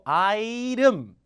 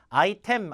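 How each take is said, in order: First: The middle consonant is a soft, quick flap. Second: The middle consonant is a clear, hard t. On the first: The speaker calls it right. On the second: The speaker calls it wrong. "아이템 아니고"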